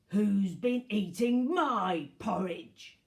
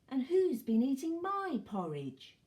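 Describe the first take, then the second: First: It is said in a gruff voice. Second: It is said in a quieter voice.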